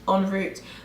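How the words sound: It is said with a British pronunciation. "en route is the way a Brit, like you'd say in English"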